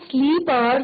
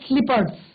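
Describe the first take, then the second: First: The first vowel is long, like sleep. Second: The first vowel is short, like slip. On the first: The speaker calls it wrong. "These are not स्लीपर्स" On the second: The speaker calls it right. "These are स्लीपर्स"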